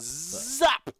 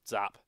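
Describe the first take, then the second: First: It is said very loudly, almost shouted. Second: It is said at a normal, quieter volume.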